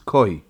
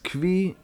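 First: The word is said as koi. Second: The word is said as kvi. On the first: "Probably the more grammatical pronunciation is koi" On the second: "Yeshayim that this word is kvi"

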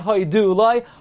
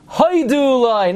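First: The stress is on the last syllable of hodu. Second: The stress is on the first syllable of hodu. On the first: The speaker calls it wrong. "not hoidulai" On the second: The speaker calls it right. "the word before jumps back and you emphasize the first syllable. So it becomes hoidulai"

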